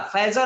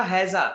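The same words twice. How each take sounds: First: फैजा with an F sound at the start; mispronounced हैजा. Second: हैजा with an H sound at the start; corrected pronunciation. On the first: (हैजा को ग़लत, फ़ से फैजा बोलते हुए) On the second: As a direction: start हैजा on a clear H, not F. (हैजा, ह से साफ़ उच्चारण) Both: Shown as a demonstration. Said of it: "फैजा नहीं बेटा".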